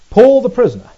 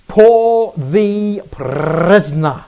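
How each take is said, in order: First: Loud, higher PAUL, falling away through prisoner; emphatic proclamation. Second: Very slow, loud PRISONER with each word stretched out; drawn-out proclamation. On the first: Preacher repeats Paul's title to the congregation, emphatic proclamation. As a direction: punch out the title without stretching it. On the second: Preacher proclaims Paul the prisoner to the congregation, drawn-out proclamation. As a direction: proclaim it grandly, lingering on every word. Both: Shown as a demonstration.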